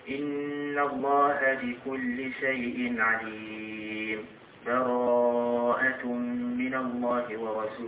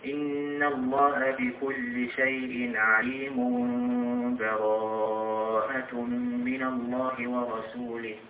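First: A brief silent break without a breath splits it. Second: Both parts run together with no break. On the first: The passages are briefly separated without a full stop. "من دون نفس" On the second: The two passages are joined into one stretch. "هذا وصل آخر سورة الأنفال بأول سورة البراءة"

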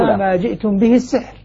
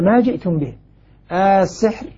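First: There is no pause before the last word. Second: There is a pause before the last word. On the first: It states that what they have brought is magic. "بينما الباقون" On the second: It asks what they have brought, then names it as magic. "عند أبي عمرو الوقف على كلمة ما جئتم به، على أساس ما استفهامية"

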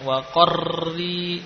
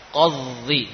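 First: The r is trilled heavily with many vibrations. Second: The r is not trilled at all. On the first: "tidak seperti ini" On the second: "ini juga justru bukan huruf ra yang dibaca"

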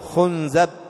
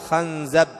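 First: The vowels are u, then a: khunzab. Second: The vowels are a, then a: khanzab. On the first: "ويجوز ضمها ... وهذه ضعيفة أو غريبة" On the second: "ويجوز فتح الخاء"

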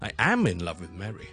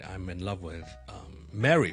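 First: The word am is loud, strong and high. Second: The verb is reduced and carries no emphasis. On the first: The speaker insists the statement is really true. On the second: It is a plain statement.

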